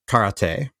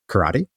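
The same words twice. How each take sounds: First: The word is said with Japanese pronunciation. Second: The word is said with a g sound. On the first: "you say karate in Japanese" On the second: "the Okinawans say karate, like with a G sound"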